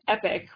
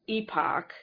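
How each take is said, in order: First: The word sounds like 'epic'. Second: The word does not sound like 'epic'. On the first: "it sounds too much like E-P-I-C" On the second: "So I've been saying it epoch"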